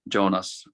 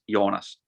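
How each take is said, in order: First: The name is said with an American pronunciation. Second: The name is said with a Finnish pronunciation. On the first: "as some Americans say" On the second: "in Finland it's pronounced"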